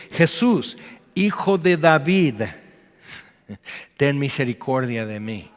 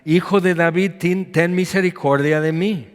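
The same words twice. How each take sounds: First: Calling out. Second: Calling out louder, pitch up; crying out. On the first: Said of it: "comenzó a dar voces". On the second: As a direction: cry out for mercy above the crowd. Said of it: "grita y grita". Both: Acted.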